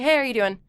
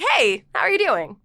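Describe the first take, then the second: First: It is said plainly, like natural talk. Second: It is said with exaggerated, animated inflection.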